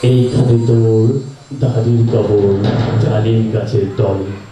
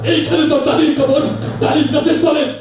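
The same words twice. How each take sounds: First: It is recited in a dreamy poet's style. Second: It is delivered like a showy political speech. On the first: "যে ছিল আ স্বভাবজাত কবি" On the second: "এইভাবে রাজনৈতিক নেতার বক্তৃতা"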